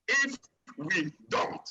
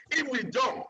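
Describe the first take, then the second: First: "if we don't" drawn out slowly, word by word; slow, deliberate warning on "if we don't"; slow emphatic repeat. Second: Said in the usual way. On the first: Real, not acted. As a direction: pause between "if", "we" and "don't" for weight. Repeats warning after "listen to me.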